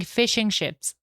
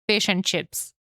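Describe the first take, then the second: First: "fishing ships" as boats, carefully told apart; clearly "fishing ships". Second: "fish and chips" with the food words set apart; "fish and chips" as the food, punched out; clearly "fish and chips". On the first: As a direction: say "fishing ships", both words with sh. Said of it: "I'm saying fishing ships". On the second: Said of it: "I'm not saying". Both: Shown as a demonstration.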